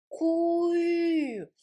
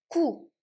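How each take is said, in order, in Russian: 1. Гласный — переднее звук u. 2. Гласный — обычный заднеязычный звук oo. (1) "а нужно кую" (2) "Если не получается, иногда, знаете, ку"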